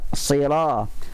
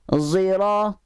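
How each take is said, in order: First: The first consonant sounds like an s. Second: The first consonant sounds like a z. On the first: This is the usual reading. "Adapun kita baca dengan sad biasa. ... sad asliyah" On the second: This is the reading of certain other imams. "Dia sad. Tapi bunyinya zi. Itu namanya sad musyammah"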